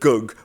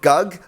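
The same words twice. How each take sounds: First: The vowel sounds dull and darkened. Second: The vowel sounds bright and open. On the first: The speaker calls it right. "but gug. We're really going to dull down that, that first vowel there" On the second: The speaker calls it wrong. "Not gug"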